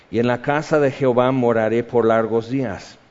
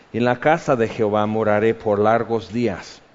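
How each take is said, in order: No difference in how they are said.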